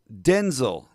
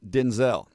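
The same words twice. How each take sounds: First: The stress is on the first syllable. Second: The stress is on the second syllable. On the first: The speaker calls it right. "using a clipped E vowel in the second syllable instead of a long vowel. The emphasis is on the first syllable" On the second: The speaker calls it wrong. "his name is not pronounced Denzel"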